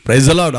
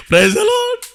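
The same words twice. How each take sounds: First: Said in the usual way. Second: "praise the lord" in a much higher, playful voice, stretching "lord"; jokey high greeting. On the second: Shown as a demonstration. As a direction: tease the aunty with a sing-song "praise the lord". (సరదాగా, చాలా ఎత్తైన స్వరంలో "praise the lord") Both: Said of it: "సరదాగా అన్నాను".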